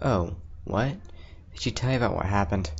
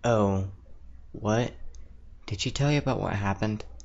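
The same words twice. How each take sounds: First: The line sounds very annoyed. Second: The line sounds only mildly annoyed. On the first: The speaker calls it right. "There you go, that's better" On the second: The speaker calls it wrong. "let me do that again"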